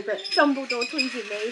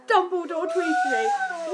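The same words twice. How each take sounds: First: Said in the usual way. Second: Much higher, slow delighted squeal; excited squeal. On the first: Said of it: "And I'm like". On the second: Real, not acted. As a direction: squeal it out like a thrilled fan.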